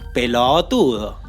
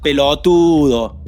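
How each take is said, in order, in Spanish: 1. La sílaba anterior a la tónica es larga. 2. La sílaba anterior a la tónica es corta. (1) "Se dice pelotudo" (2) "no se dice pelotudo"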